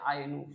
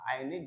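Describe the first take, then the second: First: The word ends with a u vowel. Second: The word ends with an i vowel. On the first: "tidak boleh dibaca ainu, salah" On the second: "Aini juga salah"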